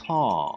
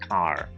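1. Британський акцент; R після голосного не вимовляється. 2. Американський акцент; R після голосного вимовляється. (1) "британський" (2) "американський варіант"

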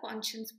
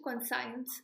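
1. दूसरा हिस्सा 'shuns' जैसा सुनाई देता है। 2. दूसरा हिस्सा 'science' जैसा सुनाई देता है। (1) "कॉन्शियंस बोलते" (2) "कॉन्साइंस नहीं होता"

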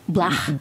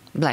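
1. Слово произносится ливерпульским акцентом. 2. Слово произносится стандартным английским акцентом.

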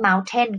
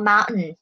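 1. เสียง T ตรงกลางออกเสียงชัดเจน 2. เสียง T ตรงกลางไม่ออกเสียง (1) "บางคนเขาไม่ออกเสียงว่า" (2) "ตัวทีหายแล้วแบบนี้นะคะ"

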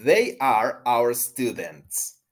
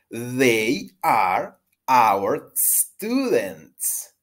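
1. La oración se dice a un ritmo rápido. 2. La oración se dice a un ritmo normal.

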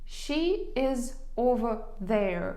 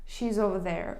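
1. Кожне слово вимовляється окремо і повністю. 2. Слова скорочуються і вимовляються злитно.

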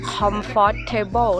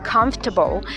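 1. ออกเสียงทุกพยางค์ตามที่เขียนไว้ 2. ออกเสียงพยางค์กลางแบบย่อ

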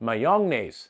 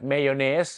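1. พยางค์แรกฟังเหมือน 'mah-yong' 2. พยางค์แรกฟังเหมือน 'meh-yuh' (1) "ปัญหามันอยู่ที่เรื่องของ, pronunciation" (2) "มีติดสำเนียงไทยแต่ออกเสียงถูกฝรั่งก็น่าจะเข้าใจมากกว่า"

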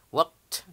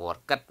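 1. Akhirannya adalah bunyi t pendek yang dilepas. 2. Akhirannya dibaca sebagai suku kata tambahan. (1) "cukup dipantulkan" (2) "sebutnya bukan worked"

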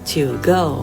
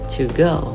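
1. She'll มีสระ ee เสียงยาว 2. She'll มีสระ i เสียงสั้น (1) "ครูจะไม่พูดว่า" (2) "แต่ครูจะพูดว่า"

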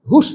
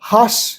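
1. স্বরটি 'oo'-এর মতো শোনায়। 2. স্বরটি 'ah'-এর মতো শোনায়। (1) "হুস না কিন্তু" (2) "এই ইউয়ের উচ্চারণ কিন্তু আ হয় এখানে"

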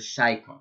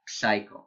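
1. המילה מתחילה בהגייה של S, בלי P. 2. המילה מתחילה בהגייה של P לפני S. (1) "באנגלית הפי לא מבטאים" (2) "זה לא psycho, זה הרבה ישראלים טועים בזה"

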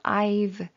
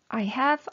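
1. have는 I에 붙어서 축약돼요. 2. 두 단어 모두 완전하게 발음해요.

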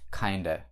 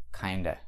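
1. Слово 'of' сокращается до краткого гласного. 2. Слово 'of' сокращается до краткого гласного.

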